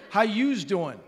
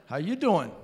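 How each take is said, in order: First: "you's" said as "yooz", with an added S, pitched up; New York "yous". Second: Said in the usual way. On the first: Shown as a demonstration. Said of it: "start adding the S's on". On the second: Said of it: "start adding the S's".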